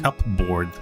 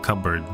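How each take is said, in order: First: The word is said as cup plus board. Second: The word is said as cubberd, p silent. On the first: The speaker calls it wrong. "I called it a cupboard" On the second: The speaker calls it right. "instead of cupboard"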